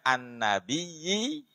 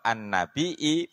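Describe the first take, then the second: First: The word ends with a doubled y sound. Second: The word ends with a glottal stop sound. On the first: "yang bertasdid" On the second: "pakai ham hamzah"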